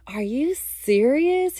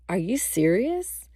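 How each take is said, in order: First: High, drawn-out incredulous question; amused disbelief. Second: Understated questioning, rising at the end; mild disbelief. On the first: Boyfriend busts out laughing at the trip reveal, amused and incredulous. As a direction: imitate his delighted disbelief, stretching it out. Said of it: "he busts out laughing". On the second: Boyfriend stares at her on hearing the news, mildly disbelieving. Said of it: "his eyes locked in on me". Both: Retold or imitated.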